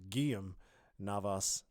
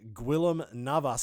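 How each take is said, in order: First: The name is said with Spanish pronunciation. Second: The name is read with English pronunciation. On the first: The speaker calls it right. "I actually just found out his name's" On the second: The speaker calls it wrong. "I didn't know the Spanish way of saying it"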